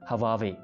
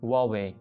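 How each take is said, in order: First: The name begins with an 'h' sound. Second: The name begins with a 'w' sound. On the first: The speaker calls it wrong. "लोग इसको हवावे बोलते हैं" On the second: The speaker calls it right. "लेकिन इसका असल नाम है वावे"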